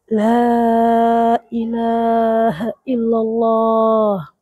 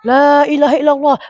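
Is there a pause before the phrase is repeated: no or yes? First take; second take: yes; no. First: A clear pause comes before the repetition. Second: It is repeated at once with no pause. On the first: The listener has time to follow along. The speaker calls it right. "Kasih jeda" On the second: The listener gets confused about what is being said. The speaker calls it wrong. "Kalau kayak gini caranya, yang mati pun bingung apa yang diucapkannya"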